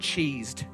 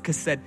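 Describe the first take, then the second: First: The word begins with a 'ch' sound. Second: The word begins with a 'k' sound. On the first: The speaker calls it wrong. "in English that looks like the word cheesed, but it's not" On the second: The speaker calls it right. "It's kased"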